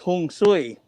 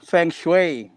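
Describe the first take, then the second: First: It begins with h and sounds like 'hong sui'. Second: It begins with f and sounds like 'fung shway'. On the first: "in Hokkien, it's" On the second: "in Mandarin, it's"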